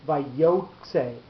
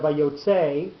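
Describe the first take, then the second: First: "vayotze" with an extra accent on the first syllable, pulled back; shifted stress. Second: "vayotze" with the accent on the last syllable, slowly; the normal stress of "vayotze", drawn out; usual stress. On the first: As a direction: push the stress of "vayotze" back toward the start. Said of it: "with the accent being here". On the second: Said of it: "the way that it normally would be said". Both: Shown as a demonstration.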